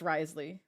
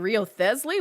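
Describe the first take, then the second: First: The name is shortened to two syllables, Risley. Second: The name is spelled out as Rio-Thesley. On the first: The speaker calls it right. "And no, it's Risley" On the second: The speaker calls it wrong. "I don't get it because I'm like"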